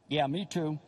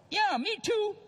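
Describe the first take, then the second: First: Said in the usual way. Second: Much higher, squeezed husband voice; pushing it out high and awkward; squeaky mock reply. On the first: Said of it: "just got married ... phone rings". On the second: Newlywed husband to his wife on the phone, squeaky and awkward.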